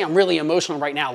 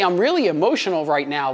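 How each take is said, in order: First: Fast, rushed run through the words; wrong way, rushed. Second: Said in the usual way. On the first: Shown as a demonstration. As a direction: blurt it out quickly as the bad example. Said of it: "You don't say". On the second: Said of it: "No, you say".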